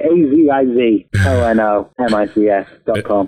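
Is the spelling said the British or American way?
American. The letters are spelled the American way.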